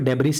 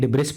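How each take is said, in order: First: It starts with 'deb' and ends with 's'. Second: It starts with 'dib' and ends with 's'. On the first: "इसको डेब्रिस नहीं पढ़ते" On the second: "ना ही डिब्रिस पढ़ते"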